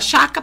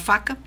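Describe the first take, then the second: First: The word begins with a sh sound. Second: The word begins with an f sound. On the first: The speaker calls it wrong. "Era tudo que era com F, esse som, faca, ferro, ela usava o sh" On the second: The speaker calls it right. "com F, esse som"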